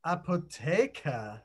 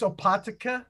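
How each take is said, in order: First: Slow "Apotheker", ah-po-TAY-kuh, stressed on TAY; German pronunciation. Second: "Opatica" as a tentative guess at the German word; unsure pronunciation. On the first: Shown as a demonstration. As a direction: model "Apotheker" slowly with a long German "e". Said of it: "let's find out how we say that". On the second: Real, not acted. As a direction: try "Opatica", unsure how it is said. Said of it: "I don't know how to say that".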